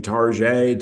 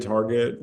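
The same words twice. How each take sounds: First: Target as tar-ZHAY; mock-French pronunciation. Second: Said in the usual way. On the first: Shown as a demonstration. Joking with co-host about pronunciations, Target Frenchified to tar-ZHAY. Joke contrast of two pronunciations.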